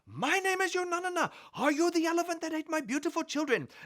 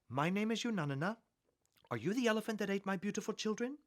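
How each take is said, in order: First: It is said very loudly, almost shouting. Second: It is said at a normal, quiet volume.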